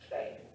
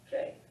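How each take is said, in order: First: The vowel sounds like 'ay'. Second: The vowel sounds like 'ay'.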